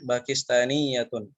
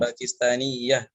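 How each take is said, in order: First: The word ends with a full vowel and -un. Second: The word ends cut off without a final vowel. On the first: "Kalau dibaca semua rokatnya" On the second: "itu kalau dimatikan"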